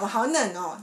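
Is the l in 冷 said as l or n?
n. 冷 is said with a nasal n, Taiwanese-style.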